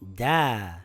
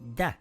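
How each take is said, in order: First: The vowel is held for two counts. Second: The vowel is held for one count. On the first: The speaker calls it right. "it will read da" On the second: The speaker calls it wrong. "and not da"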